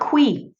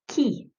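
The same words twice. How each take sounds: First: It does not sound like English key. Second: It sounds like the English word key. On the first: The speaker calls it wrong. "Not qui" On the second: The speaker calls it right. "Ça se prononce qui. It's key"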